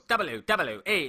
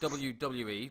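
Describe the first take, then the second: First: The letters are drawn out with heavy exaggerated emphasis. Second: The letters are said plainly, without extra force. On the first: The speaker calls it wrong. "He goes W W E. It's like he puts a fucking triple B, triple L, everything in it" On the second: The speaker calls it right. "He doesn't say W W E like it, it is"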